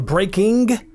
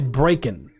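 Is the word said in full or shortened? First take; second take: full; shortened. First: The word is said fully with every sound. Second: The word is clipped, with its ending shaved off. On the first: "instead of saying" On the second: "try shaving certain words off"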